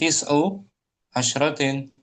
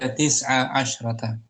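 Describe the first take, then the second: First: The words end in 'u' and 'in' sounds. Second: Both words end in a short 'a' sound. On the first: The speaker calls it wrong. "Bukan tis'u asyratin" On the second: The speaker calls it right. "Dibaca tis'a asyrata"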